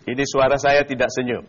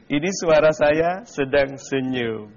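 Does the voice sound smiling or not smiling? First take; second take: not smiling; smiling. First: The voice sounds not smiling. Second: The voice sounds smiling.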